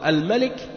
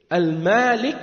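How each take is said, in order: First: The first vowel is short. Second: The first vowel is long. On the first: It means the king. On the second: It means the owner.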